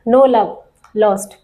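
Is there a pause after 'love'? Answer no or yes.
yes. There is a pause after 'love'. There is no love left, and they dislike each other. The speaker calls it right. "यहाँ पर comma लगा दो। No love"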